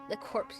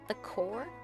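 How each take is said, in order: First: The word ends with p and s sounds. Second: The word ends without p and s sounds. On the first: This is how the speaker would have read it. "I'd have read that as the corpse" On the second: This is how others pronounce it. "Is that how they pronounce it?"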